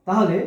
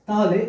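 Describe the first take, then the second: The two takes are said the same way.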